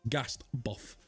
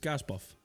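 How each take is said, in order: First: The first word ends with a 't' sound. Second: The first word ends without a 't' sound. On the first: "I don't say gassed a buff" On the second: "I say gas buff"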